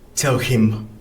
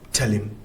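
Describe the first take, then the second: First: The h sound at the start of him is pronounced. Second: The h sound is dropped, linking into the l. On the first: "not tell him" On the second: "the l sound can eat the h sound. That's why here we just have tell him"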